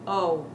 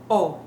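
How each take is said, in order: First: The vowel is long and drawn out. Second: The vowel is short and crisp. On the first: "as opposed to O" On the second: "make your O short and crisp"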